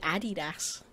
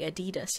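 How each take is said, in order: First: It is said the British way. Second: It is said the American way. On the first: "we say Adidas" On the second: "You say Adidas"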